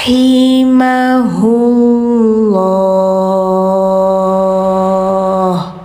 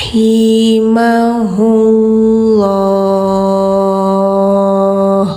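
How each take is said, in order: No difference in how they are said.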